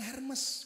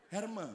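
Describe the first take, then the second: First: The final s is pronounced. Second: The final s is left silent. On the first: The speaker calls it wrong. "Bacanya jangan Hermes, kampungan" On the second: The speaker calls it right. "Yang betul tuh Herme katanya"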